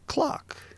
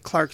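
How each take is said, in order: First: The word is said without the R sound. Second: The word is said with the R sound.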